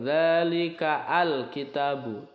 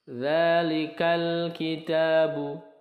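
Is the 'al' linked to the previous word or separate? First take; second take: separate; linked. First: The 'al' is pronounced as a separate syllable. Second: The 'al' is joined directly to the previous word. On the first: The speaker calls it wrong. "bukan zalika al kitabu" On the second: The speaker calls it right. "tetapi langsung ke lam sukunnya"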